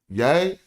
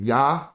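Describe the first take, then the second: First: The word ends with a long 'ay' vowel. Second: The word ends with a short 'ah' vowel. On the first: The speaker calls it right. "That's yay. If you got two A's, you gotta say A" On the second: The speaker calls it wrong. "You can't say a short vowel"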